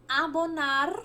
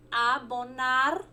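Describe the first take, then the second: First: Said in the usual way. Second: Slow. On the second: Shown as a demonstration. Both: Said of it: "Abonar em espanhol significa".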